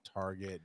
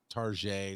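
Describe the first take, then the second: First: The word is said with its usual pronunciation. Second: The word is said with an altered pronunciation. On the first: "instead of Target" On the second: "she calls it Target"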